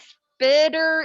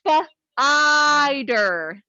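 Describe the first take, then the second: First: The first vowel is a short I sound. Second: The first vowel is a long I sound. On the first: The speaker calls it wrong. "If I do the short I here, does that make sense?" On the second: The speaker calls it right. "let's flip that to the long vowel"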